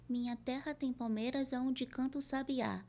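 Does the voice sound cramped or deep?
cramped. The voice sounds cramped, with short articulation. The speaker calls it wrong. "se eu encurtar tudo aqui desse jeito assim, não dá certo"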